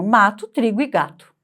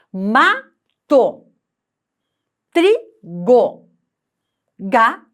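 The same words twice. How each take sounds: First: Said in the usual way. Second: "Mato", "trigo", "gato" split into loud, separate syllables; slow, syllable by syllable. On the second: Shown as a demonstration. Teacher showing pupils how to count syllables, reading aloud slowly and deliberately. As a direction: sound out "Mato, trigo, gato" with a pause after every syllable. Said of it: "em voz alta, pausadamente".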